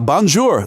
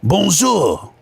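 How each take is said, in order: First: It is said in the speaker's plain accent. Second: It is said in an exaggerated French accent.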